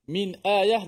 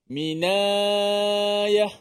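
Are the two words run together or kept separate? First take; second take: separate; run together. First: The two words are kept separate. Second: The two words are run together.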